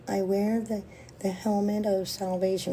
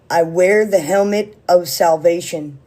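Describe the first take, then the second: First: It is said timidly and meekly, like a mouse. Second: It is said powerfully and with conviction.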